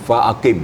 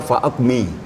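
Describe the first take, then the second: First: The word ends with the vowel before the m. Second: The word ends with the vowel after the m. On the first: The speaker calls it right. "yang sebenarnya adalah fa'aqim" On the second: The speaker calls it wrong. "ada yang baca fa'aqmi"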